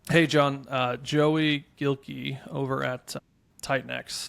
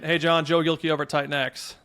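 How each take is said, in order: First: It has hesitation sounds and pauses throughout. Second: It flows straight through without hesitation sounds. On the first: The caller sounds conversational and easy to follow. The speaker calls it right. "I'm like injecting uhs and pauses" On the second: The listener gets too much at once. The speaker calls it wrong. "There's a lot there to consume"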